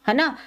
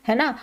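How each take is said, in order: No difference in how they are said.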